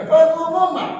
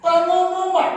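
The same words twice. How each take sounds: First: "Pengumuman" lebih keras dan tinggi. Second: Nada tinggi seperti pengumuman; pengumuman biasa. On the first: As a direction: serukan seperti juru umum. (seruan "Pengumuman" yang tinggi dan keras) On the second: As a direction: umumkan dengan suara tinggi. (diucapkan bergaya pengumuman) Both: Shown as a demonstration. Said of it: "Bukan pengumuman, ya".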